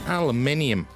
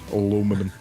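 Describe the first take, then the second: First: It is said the British way, five syllables. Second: It is said the American way, four syllables.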